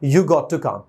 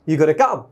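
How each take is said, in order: First: 'Got to' is said as two full words. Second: 'Got to' is squeezed into one reduced 'gotta'. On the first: "और short form बोल सकते हैं" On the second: "और short form में"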